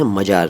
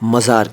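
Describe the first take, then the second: First: The middle consonant is a 'j' sound. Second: The middle consonant is a 'z' sound. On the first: The speaker calls it wrong. "मजार नहीं" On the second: The speaker calls it right. "मज़ार कहते हैं"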